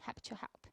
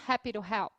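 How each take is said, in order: First: The t in 'to' is a clear t sound. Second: The t in 'to' sounds like a quick r. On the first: "Mas você pode falar também" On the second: "eu estou pronunciando esse T com um som de R"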